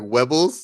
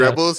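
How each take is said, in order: First: The R is replaced with a W sound. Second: The word begins with a plain R sound. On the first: "he can't pronounce his R's or W's" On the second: "instead of saying"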